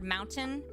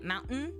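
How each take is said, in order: First: The middle t is a full t sound. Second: The middle t is a glottal stop. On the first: "if you say the word mountain" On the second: "but you say it mountain, that's a glottal stop"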